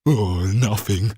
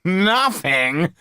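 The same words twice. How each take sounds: First: Slow, louder despairing sigh; a thief's slow despairing groan. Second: High, mocking repeat. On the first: Acted. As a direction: sag with disappointment. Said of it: "he said despairingly". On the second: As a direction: echo the word with a sneer. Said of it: "Joe burst out laughing".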